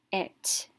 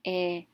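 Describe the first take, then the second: First: "it" blended into one syllable; blended short vowel. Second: "It" split into short vowel, then t; sounded out. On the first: Teacher reading the closed syllable, blended with short vowel. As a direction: say "it" joined up, with a short i. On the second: Teacher showing a short vowel sound, sounded out slowly. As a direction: sound out "It" one sound at a time. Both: Shown as a demonstration. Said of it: "and a short vowel sound".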